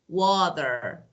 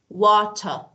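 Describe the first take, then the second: First: The middle T sounds like a soft D. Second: The middle T is a clear T sound. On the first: "I should pronounce it like soft D" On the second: "in British, you know that they normally pronounce T"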